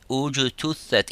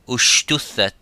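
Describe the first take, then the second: First: The consonant before the t is a 'j' sound. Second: The consonant before the t is an 'sh' sound. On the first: The speaker calls it right. "if you wanted to sound" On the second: The speaker calls it wrong. "instead of saying ujtuthat or ushtuthat"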